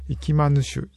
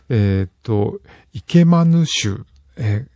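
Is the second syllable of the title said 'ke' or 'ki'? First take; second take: ki; ke. First: The second syllable is said as 'ki'. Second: The second syllable is said as 'ke'. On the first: The speaker calls it right. "イキマヌシュだ。" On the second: The speaker calls it wrong. "ごめん、言い方間違った。"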